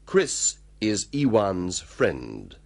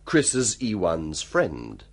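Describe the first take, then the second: First: It is said slowly and carefully. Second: It is said fast, conversationally.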